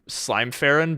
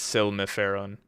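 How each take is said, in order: First: The name starts with the sound slime. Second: The name starts with the sound silm. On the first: The speaker calls it wrong. "I was gonna say slime" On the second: The speaker calls it right. "but I realized it's Silmiferon. That's right"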